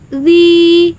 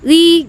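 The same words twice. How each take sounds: First: The vowel is held for two beats. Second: The vowel is held for one short beat. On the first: "Kalau dua ketukan atau dua harokat" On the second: "satu harokat, satu ketukan"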